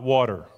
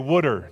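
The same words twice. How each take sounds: First: It is said without a South Jersey accent. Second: It is said with a South Jersey accent. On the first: This is how people elsewhere say it. "not water" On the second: This is how people say it locally. "I come from a little town in South Jersey. We say water"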